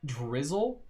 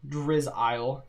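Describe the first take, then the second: First: It sounds just like the everyday word 'drizzle'. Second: It sounds different from the everyday word 'drizzle'. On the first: The speaker calls it wrong. "I pronounced it wrong" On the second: The speaker calls it right. "it's Drizzile"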